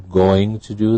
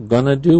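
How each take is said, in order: First: 'Going to' is said fully as two words. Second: 'Going to' is reduced and blended into 'gonna'. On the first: "correct form" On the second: "reduced form"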